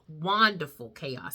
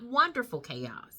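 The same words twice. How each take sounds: First: The first syllable is said 'wahn', like a name. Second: The first syllable is the usual 'wun' sound. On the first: The title puns on a returning cast member's name. The speaker calls it right. "I meant to say it that way" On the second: It is just the ordinary word. The speaker calls it wrong. "not wonderful chaos"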